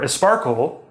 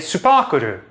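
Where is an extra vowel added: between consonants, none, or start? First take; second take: start; between consonants. First: An extra vowel is added at the start. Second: Extra vowels are added between the consonants. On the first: A Spanish speaker says it. "a Spanish learner of English would probably say something like esparkle" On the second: A Japanese speaker says it. "they'd say supakuru"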